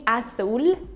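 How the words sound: It is said with an accent from Spain. "Spanish in Spain. This is the accent they have there"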